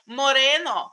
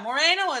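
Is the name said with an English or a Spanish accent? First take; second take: Spanish; English. First: The name is said with a Spanish accent. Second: The name is said with an English accent.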